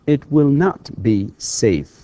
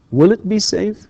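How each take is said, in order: First: It will not be safe slowly, falling; teacher's slow negative. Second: Will it be safe rising high on be; teacher drilling a question; question rise. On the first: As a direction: drag the negative out. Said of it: "negative drill". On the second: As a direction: lift it up as a question. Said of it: "question drill". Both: Shown as a demonstration.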